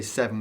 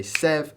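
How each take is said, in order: First: "seven" said with both syllables; full two-syllable "seven". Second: "sev" as one clipped syllable, no second syllable; one-syllable "sev" in the count. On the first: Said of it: "we don't say seven". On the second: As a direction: cut "seven" down to "sev". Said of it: "we just say sev". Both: Shown as a demonstration.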